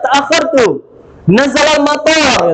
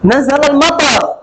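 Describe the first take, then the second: First: The last vowel of matar is drawn out long. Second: The last vowel of matar is kept short. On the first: An airport came down. "karena dipanjangkannya" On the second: Rain fell. "turun hujan"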